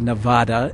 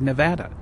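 First: The word is said the way easterners say it. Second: The word is said the way locals say it. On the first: The speaker is from outside the state. "some people back east say Nevada" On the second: The speaker is from the state. "people out here say Nevada"

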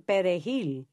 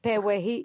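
First: The R is trilled. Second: The R sounds like a W sound. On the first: The speaker is Dominican. "And we would say Perejil. We trill the R" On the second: The speaker has a Haitian background. "Ours is, I guess it would be like more like a W. like Pewehil"

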